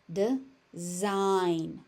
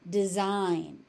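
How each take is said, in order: First: "Design" split as de... zign; syllable by syllable. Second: Said in the usual way. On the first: Shown as a demonstration. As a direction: pause between the halves of "Design". Teacher breaks word into syllables.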